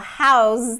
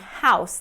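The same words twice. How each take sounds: First: The word ends with a buzzing z sound. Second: The word ends with a hissing s sound. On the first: It is used as a verb. "when a word is a verb and has an S sound in it, it's going to be a Z" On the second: It is used as a noun. "is that noun version"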